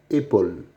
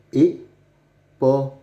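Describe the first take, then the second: First: Said in the usual way. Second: "épaule" drawn out slowly, every syllable clear; sounded out slowly. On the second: Shown as a demonstration. Teacher showing young readers the word, slowly sounded out. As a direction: stretch out "épaule" so pupils hear each sound. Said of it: "ce dessin nous montre une".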